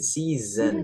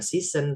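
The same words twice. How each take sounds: First: The middle consonant is a buzzing Z sound. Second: The middle consonant is a hissing S sound. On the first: The speaker calls it right. "pakai Z jadi season" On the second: The speaker calls it wrong. "bukan season"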